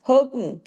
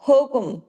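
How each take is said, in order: Both takes have the same delivery.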